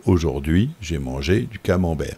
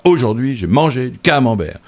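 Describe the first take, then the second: First: "Aujourd'hui", "mangé", "camembert" stressed on their last syllables; low demonstration, leaning on the end of "camembert"; stress on word endings. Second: "Aujourd'hui", "mangé", "camembert" each punched on the first syllable; higher, unnatural front-stress on "Aujourd'hui" and "camembert"; stress on word beginnings. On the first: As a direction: lower voice, "Aujourd'hui" and "mangé" accented on the final syllable. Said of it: "On met les accents à la fin des mots". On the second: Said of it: "on va accentuer le K". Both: Shown as a demonstration.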